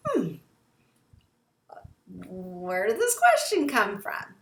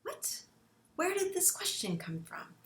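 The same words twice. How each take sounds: First: Suspicious tone. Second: Stunned, softer gasping "What?"; mock shocked parent. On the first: Shown as a demonstration. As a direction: let the suspicion show in the voice. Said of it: "Does your tone or your pitch of your voice change". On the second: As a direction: caught off guard, voice dropping away. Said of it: "And you're like".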